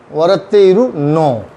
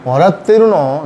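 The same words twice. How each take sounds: First: वरत्ते इरु नो with इरु said in full, slow; full form. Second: वरत्ते रु नो with इरु clipped to रु; contracted form. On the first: Teacher showing students the full form, slowly. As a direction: spell out इरु clearly, unhurried. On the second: Teacher showing students the casual contracted form. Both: Shown as a demonstration. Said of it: "इसको खींच भी दें आप".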